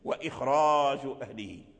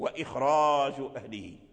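First: The r sound is heavy and full. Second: The r sound is heavy and full.

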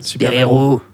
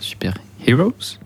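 First: It is pronounced the French way. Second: It is pronounced the English way. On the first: The speaker calls it right. "prononciation française" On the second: The speaker calls it wrong. "je crois qu'il y a un accent"

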